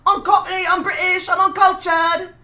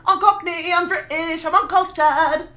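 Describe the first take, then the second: First: Mock Cockney. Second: Put-on Cockney accent again, a touch higher, slow at the end; mock Cockney. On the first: Streamer boasting to chat in mock Cockney accent. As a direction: ham up a Cockney accent as a bit. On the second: Streamer repeating his boast in mock Cockney accent. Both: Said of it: "I'm still doing this voice".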